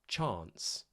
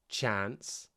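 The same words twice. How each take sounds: First: The vowel is a long, broad ah sound. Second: The vowel is a flat, front a sound.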